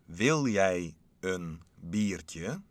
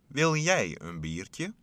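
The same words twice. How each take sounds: First: It is said very slowly. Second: It is said at normal speed.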